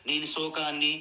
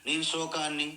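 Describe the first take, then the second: The two takes are said the same way.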